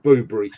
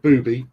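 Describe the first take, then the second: First: The name is said with an R sound. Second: The name is said without an R sound. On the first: The speaker calls it right. "it does have an R in it" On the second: The speaker calls it wrong. "so not booby"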